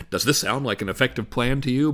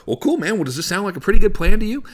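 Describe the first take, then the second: First: Stiff scripted wording. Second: Upbeat, higher and louder buddy-to-buddy question; casual, normal talk. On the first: Salesman reading the question from his slide, scripted. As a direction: read off the screen, lower and level. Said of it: "I don't really talk like that". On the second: Salesman asking a client about the plan, casual and natural. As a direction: toss it out like chatting with a pal. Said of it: "I talk normal". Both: Shown as a demonstration.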